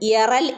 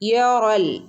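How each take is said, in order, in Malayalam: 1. ർ ശബ്ദം ലഘുവും നേർത്തതുമാണ്. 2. ർ ശബ്ദം കനത്തതും നിറഞ്ഞതുമാണ്. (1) "എന്ന് ഓതരുത് കേട്ടോ" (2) "റോയിനെ നമ്മൾ പറഞ്ഞതാണ് ഒന്ന് ഹെവിയാക്കി പറയണം"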